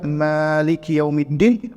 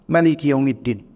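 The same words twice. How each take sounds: First: The vowel after the m is long. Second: The vowel after the m is short. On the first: It means king or ruler. "boleh dibaca Maliki Yaumiddin" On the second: It means owner. "boleh dibaca mimnya pendek"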